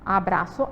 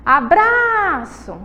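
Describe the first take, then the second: First: Said in the usual way. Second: ABRAÇO called high, BRA stretched long; calling the word out. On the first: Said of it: "a sílaba bra". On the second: Shown as a demonstration. Teacher calls words to test stress, long BRA in Abraço. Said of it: "Vamos chamar elas".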